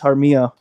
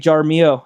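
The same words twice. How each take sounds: First: The name is said the New Mexico way. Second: The name is said the Indiana way.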